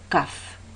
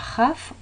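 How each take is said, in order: First: It starts with a hard k sound. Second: It starts with a soft, breathy sound. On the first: The letter has a dot inside. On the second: The letter has no dot inside.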